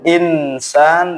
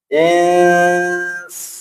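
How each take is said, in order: First: The n before s is pronounced clearly. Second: The n is hidden into the s, nasalized. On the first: The speaker calls it wrong. "Tidak boleh insan" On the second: The speaker calls it right. "ikhfa ... menyamarkan nun ... dengan dengung"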